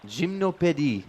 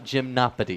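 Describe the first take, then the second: First: It is said with a French pronunciation. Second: It is said with an American pronunciation. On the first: The speaker calls it right. "Gymnopédie, not gymnopedies" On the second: The speaker calls it wrong. "not gymnopedies"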